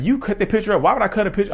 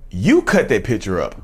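First: High-pitched, protesting comeback; acted-out disbelieving counter-accusation; incredulous retort. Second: Slow, deliberate mock accusation; imitating a stunned accuser, unhurried; wide-eyed accusation. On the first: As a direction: throw the accusation back, pitched way up. Throws the accusation back in retold quarrel. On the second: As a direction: act out an accusation, drawing the words out slowly. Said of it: "her eyes got wide and she looked at me".

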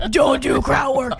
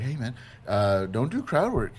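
First: Harsh order as she heard it. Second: Casual friendly advice. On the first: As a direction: yell it like a harsh reprimand. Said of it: "my filter, I heard". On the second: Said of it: "You didn't say it like that". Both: Retold or imitated.

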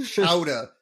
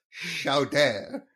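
First: "Chowder" said loudly as SHOW-duh; demanded pronunciation. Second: "Chowder" said as show-DAIR; mock-French pronunciation. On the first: Acted. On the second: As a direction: stretch the open last vowel of "Chowder". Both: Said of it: "say it right".

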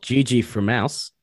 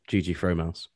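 First: "Fromouse" with a short unstressed first vowel, like "frum-OUSE"; corrected username pronunciation. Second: "Fromouse" with a long O, like "FROH-mouse"; mistaken username pronunciation. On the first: Correcting a co-host's reading of a username, "Fromouse" said like "from Aus". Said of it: "instead of G G Fromouse". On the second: Mimicking the co-host's misreading, "Fromouse" with a full "froh". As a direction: say "Fromouse" as "fro" plus "mouse", softer. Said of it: "instead of". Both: Shown as a demonstration.

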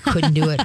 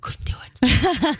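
First: Said in the usual way. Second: Breathless whisper of refusal; hushed can't-do-it. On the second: Retold or imitated. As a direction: whisper it, horrified. Recalling frog dissection disgust.

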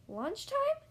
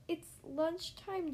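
First: High rising question on "Lunchtime"; suddenly interested, louder and higher; perked-up surprise. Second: Said in the usual way. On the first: A narrator's reading. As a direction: perk up hopefully, pitch leaping at the end. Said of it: "Gerald perks up".

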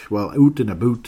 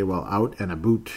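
First: Louder Canadian "oot and aboot"; hammed-up Canadian vowels on "out and about"; Canadian accent. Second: Said in the usual way. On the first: Shown as a demonstration. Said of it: "Can you sense the Canadian accent".

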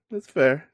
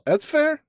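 First: Said in the usual way. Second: Much higher, louder playful exclaim; amused concession. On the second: Real, not acted. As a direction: squeak it out as a playful give-in. Host concedes guest won't do impressions.

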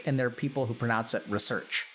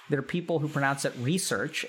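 First: "research" said ruh-SURCH; short first syllable in "research", stress the second; "research" as ri-SEARCH, back-stressed; pronunciation contrast. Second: "research" said REE-search; "research" as REE-surch, front-stressed; pronunciation contrast. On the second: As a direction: stress the first syllable of "research", long ee. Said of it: "two kinds of people ... pronounce it research". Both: Shown as a demonstration.

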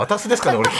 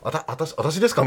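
First: High-pitched comic bumpkin "あたす" for "あたし"; mock comedian voice, "shi" slurred to "su"; 志村さん impression. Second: Said in the usual way. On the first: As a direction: say "あたすですかね" as a laughing comic impression. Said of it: "山田裕貴君が何やっても志村さんに見えるんですよ". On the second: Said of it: "みたいな時も".

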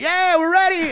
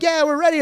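First: Squeaky mock party girl, pitched way up; high girly mimicry. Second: Mock girly voice. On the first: Telling friends how the girls answered, high mock girly voice. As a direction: play the excited girls in the back seat. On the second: Girls voiced in retold scene.

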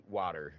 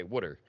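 First: "water" with a standard ah vowel; accent-free WATER. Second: "wooder" with the vowel of "wood"; Philly WOODER. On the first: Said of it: "I can fix my accent". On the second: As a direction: say "wooder" for water, Philly style. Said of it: "I still choose to say wooder". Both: Shown as a demonstration.

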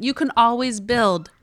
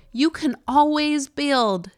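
First: Said in the usual way. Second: Slow drawled Utah vowels; Utah accent. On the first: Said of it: "without my Utah accent". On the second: Shown as a demonstration. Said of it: "I'm gonna say that again without my Utah accent".

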